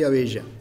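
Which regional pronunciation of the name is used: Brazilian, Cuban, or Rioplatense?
Rioplatense. The name is said the Rioplatense Spanish way. "en el Río de la Plata usualmente soy Abella"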